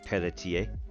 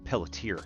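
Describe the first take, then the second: First: The name is said with French pronunciation. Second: The name is said with American pronunciation. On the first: "it is in French" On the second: "in New Hampshire speak"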